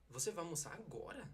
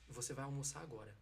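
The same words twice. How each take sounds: First: It is said in a pointed, irritating tone. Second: It is said in a plain, neutral tone.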